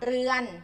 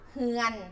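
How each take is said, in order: First: The word begins with an r sound. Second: The word begins with an h sound. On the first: This is the Central Thai form. "ภาษาไทยกลางเรียกว่าเรือน" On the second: This is the Northern dialect form. "ภาษาถิ่นเหนือเรียกว่าเฮือน เปลี่ยนตัวอักษรรอเรือเป็นหอนกฮูก"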